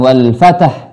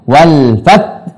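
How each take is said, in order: First: An extra vowel is inserted between t and h. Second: Both final t and h are clearly sounded. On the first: The speaker calls it wrong. "bukan wal fatah" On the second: The speaker calls it right.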